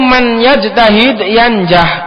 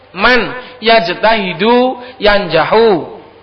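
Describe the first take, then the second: First: The verbs end without a final vowel. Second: The verbs end with a final 'u' vowel. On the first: Whoever strives will succeed. "Bi fathil mim" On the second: The one who strives is the one who succeeds. "kalau mausulah berarti dirofa"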